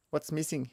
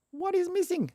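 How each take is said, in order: First: Said in the usual way. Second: Very high, mock-exasperated question; high-pitched puzzlement. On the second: Real, not acted. Coder asking the error what it wants, high-pitched puzzlement. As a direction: squeak it out on one high held pitch.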